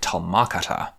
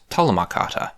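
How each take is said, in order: First: Talma stressed on its second syllable, MA; tal-MA-kata, stressed after the first syllable. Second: TALMA with the weight on TAL; TAL-ma kata, stressed up front; stress on first syllable. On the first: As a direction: push the weight onto the MA of talma. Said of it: "really weird to stress the ma". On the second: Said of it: "stress would be on the first syllable". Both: Shown as a demonstration.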